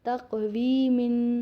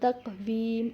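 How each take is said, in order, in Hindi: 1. शब्द के अंत में एक अतिरिक्त 'in' आवाज़ जुड़ती है। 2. शब्द 'in' अंत के बिना रुक जाता है।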